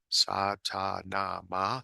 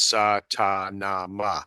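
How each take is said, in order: First: The phrase is said quietly. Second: The phrase is said at normal volume. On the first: "then you say it quieter" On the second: "and then regular voice"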